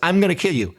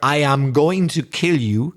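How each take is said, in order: First: The words are contracted, with weak forms. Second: Every word is said in full, uncontracted. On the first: The threat is not meant seriously. "It's not too serious" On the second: The threat sounds genuinely serious. "in the long form, it sounds much worse"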